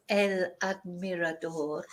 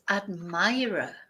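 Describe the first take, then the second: First: "admirador" the Spanish way, ad-mee-ra-DOR; Spanish vowels in "el admirador"; Spanish pronunciation. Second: "admirer" slowly, ad-MY-ruh; drawn-out English "admirer"; English pronunciation. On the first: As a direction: say "admirador" with stress on the last syllable. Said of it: "in Spanish is". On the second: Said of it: "but in English". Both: Shown as a demonstration.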